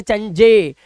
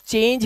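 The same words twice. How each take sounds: First: चंजे with sounded final e, chan-je; चंजे split into two syllables; wrong reading. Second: चेंज as one syllable, silent e; चेंज ending on j; right reading. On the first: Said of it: "चंजे नहीं पढ़ रहे थे". (गलत उच्चारण चंजे) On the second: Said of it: "ये सिर्फ चेंज है". (सही उच्चारण चेंज) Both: Shown as a demonstration.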